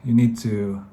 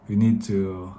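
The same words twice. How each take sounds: The two takes are said the same way.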